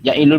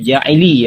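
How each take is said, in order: First: The vowel after the L is u. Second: The vowel after the L is i. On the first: The speaker calls it wrong. "tadi dibaca ya" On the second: The speaker calls it right. "Harusnya Ja'ili ya. Baris kasrah"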